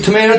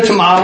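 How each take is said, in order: First: "Tomato" with an AY middle, to-MAY-to; long A in "Tomato", as in "may"; first pronunciation. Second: "tomato" with an AH middle, to-MAH-to; second pronunciation. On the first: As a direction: say "Tomato" as tuh-MAY-toh. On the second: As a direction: say "tomato" as tuh-MAH-toh. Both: Shown as a demonstration. Contrasts two ways of saying it.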